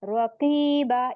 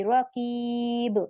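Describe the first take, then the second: First: Slow "रकीबा" ending on open long aa; one-zabar stop. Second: Slow "रकीब" cut off on b, no final vowel; wrong sukoon stop. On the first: Teacher showing the correct stop, drawn-out "रकीबा" with open aa. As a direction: hold the ee, then finish "रकीबा" on aa. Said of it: "एक जबर दे देंगे". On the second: Teacher showing what not to read, drawn-out "रकीब" ending on vowelless b. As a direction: stretch the ee of "रकीब" and close on b. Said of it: "सुकून नहीं बनाएंगे". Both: Shown as a demonstration.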